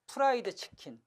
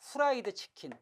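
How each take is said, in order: First: The F is said like a p sound. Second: The F is said like an h sound. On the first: The speaker calls it right. "어떤 사람은 이 F를 피읍에 가깝게 발음해요" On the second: The speaker calls it wrong. "어떤 사람은 이 F를 히읗에 가깝게 발음하고"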